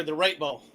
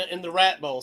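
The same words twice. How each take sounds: First: "Rate" said with a long ay, rhymes with late; the word "Rate" corrected to a long ay sound; corrected pronunciation. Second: "Rat" said with a short a, like rat; the word "Rat" with a short flat a; mispronounced. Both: Real, not acted. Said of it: "Sorry, the Rate Bowl".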